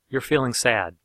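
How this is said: The pitch falls at the end. It reflects back what was heard. "down at the end of the reflection"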